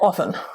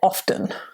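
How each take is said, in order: First: The T sound in the word is silent. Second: The T sound in the word is pronounced. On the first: This is the everyday, casual way to say it. "First speakers will say often" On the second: This is used for clarifying or speaking formally. "we will speak clearly and say often"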